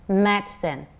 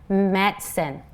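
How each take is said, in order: Both takes have the same delivery.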